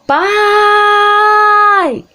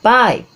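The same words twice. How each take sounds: First: The word is shouted with a long vowel. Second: The word is said at normal volume. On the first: "Aí você tem que gritar" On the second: "Aí você chama ele"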